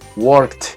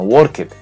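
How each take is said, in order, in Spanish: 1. La terminación se dice como un sonido T simple. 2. La terminación se dice como una sílaba extra 'et'. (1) "esa terminación va a sonar como una T" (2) "no worked"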